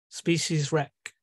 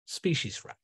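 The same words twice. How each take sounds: First: Species wreck drawn out slowly. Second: Species wreck repeated softer, falling. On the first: Neptune naming humans' ruin, slow Species wreck. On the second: Neptune echoing the ruin, soft species wreck. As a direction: let species wreck sink quietly. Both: Acted. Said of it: "in the voice of Neptune".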